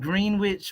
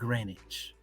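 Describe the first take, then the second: First: The word is said fully, as it is spelled. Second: The word is said in a shortened, reduced form. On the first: "it's spelled Greenwich" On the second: "they pronounce it Greenwich. Just you know, just lazy tongue"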